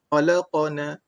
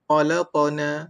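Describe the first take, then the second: First: The q is followed by an a-like vowel. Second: The q is followed by an a-like vowel.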